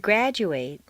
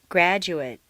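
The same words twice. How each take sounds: First: The last syllable has a full 'ay' vowel. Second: The last syllable has a weak reduced vowel. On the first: It is used as a verb. "a full a sound" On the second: It is used as a noun or adjective. "completely reduced to mt"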